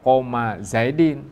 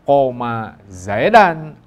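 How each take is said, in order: First: The second word ends in an i sound. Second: The second word ends in an a sound. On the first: "jangan dibaca" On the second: "jangan dibaca"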